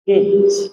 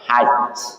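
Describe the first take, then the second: First: The first vowel is an 'i' sound. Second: The first vowel is an 'a' sound. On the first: "boleh dibaca kasrah juga" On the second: "dengan dibaca patah awalnya"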